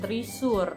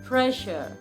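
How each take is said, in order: First: The first syllable has an 'ee' vowel. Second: The first syllable has an 'eh' vowel. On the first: The speaker calls it wrong. "bacanya bukan trisur" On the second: The speaker calls it right. "bacanya adalah treasure, tre"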